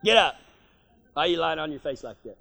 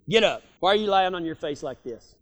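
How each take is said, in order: First: Quick, quieter low nag; wife's hurried nagging. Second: Lower, firm fatherly scolding; daddy's stern voice. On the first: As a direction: rush him out of bed before church. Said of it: "My wife used to tell me that". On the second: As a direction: scold like a daddy rousting his kid. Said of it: "heard your daddy tell you that". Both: Retold or imitated.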